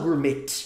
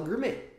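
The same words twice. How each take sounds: First: The word ends with an audible T sound. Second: The word ends without any T sound. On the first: The speaker calls it wrong. "a gente não fala gourmet" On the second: The speaker calls it right. "Sem o som do T no final"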